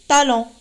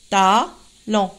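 First: Said in the usual way. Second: "Talon" split into two drawn-out syllables, ta - lon; découpage en syllabes. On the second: Shown as a demonstration. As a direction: say "Talon" syllable by syllable with a pause between. (« Talon » détaché en deux syllabes) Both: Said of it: "deux syllabes".

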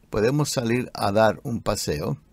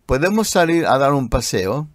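First: Softer second take of "¿Podemos salir a dar un paseo?"; softer repeat. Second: Said in the usual way. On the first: Shown as a demonstration.

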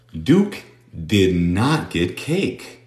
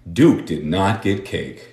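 First: Duke did not get cake, word by word, very slowly; very slow model sentence. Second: Said in the usual way. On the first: Shown as a demonstration. Teacher reads the practice sentence word by word, very slowly. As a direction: spell it out slowly, one word at a time. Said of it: "teacher models sentence". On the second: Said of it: "repeat at near speed".

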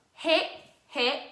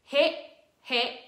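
Both takes have the same delivery.

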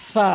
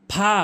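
First: ফা with a long f friction; correct pronunciation. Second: ফা as an aspirated p-h; wrong pronunciation. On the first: Teacher modelling for learners, correct f in ফা. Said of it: "সঠিক উচ্চারণ হচ্ছে". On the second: Teacher showing learners the mistake, wrong ফা. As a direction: say ফা with both lips popping. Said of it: "ভুল উচ্চারণ". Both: Shown as a demonstration.

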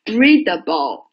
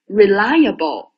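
First: Readable slow, first syllable REA hit hard; teacher contrasting Readable stress with reliable. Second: Reliable slow, second syllable LI hit hard; teacher contrasting reliable stress with Readable. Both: Shown as a demonstration. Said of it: "而且重音也不一样".

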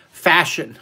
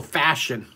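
First: "Fashion" said as a firm one-word answer; punchline reveal. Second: Said in the usual way. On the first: Shown as a demonstration. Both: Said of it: "I can tell you in one word".

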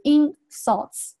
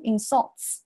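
First: "insults" with the first syllable IN stressed; front stress on insults. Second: "insults" with the second syllable SULTS stressed; light in, heavy SULTS in "insults"; back stress on insults. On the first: Teacher showing students the noun insults, stress on the first syllable. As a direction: hit IN in "insults", let sults fall. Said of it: "它前面重读". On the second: Teacher showing students the verb insults, stress on the second syllable. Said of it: "它后面要重读". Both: Shown as a demonstration.

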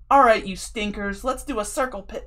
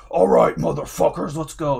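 First: Silly frontman. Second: Loud, gruff crowd-hyping frontman call; hype metal frontman. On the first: Singer teasing the crowd into a pit, goofy loud call. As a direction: ham it up like a playful metal singer. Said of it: "he was being so silly on purpose". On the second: Frontman firing up the crowd, loud hype call. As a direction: pump up the pit like a metal singer. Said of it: "on stage and be like". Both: Retold or imitated.

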